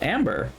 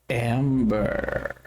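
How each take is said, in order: First: It is said in a light, casual way. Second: It is said in a slow, sensual way. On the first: Finding a useful item is pleasant but ordinary. The speaker calls it right. "It should be kind of like, oh cool, amber, like neat" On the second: The item is treated with odd, seductive feeling. The speaker calls it wrong. "why is it so sensual?"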